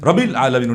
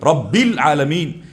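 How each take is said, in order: First: The b sound is short and single. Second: The b sound is held long and doubled. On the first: The speaker calls it wrong. "এখানে রব্বি শক্ত হলো না" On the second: The speaker calls it right. "মুসাদ্দাদ"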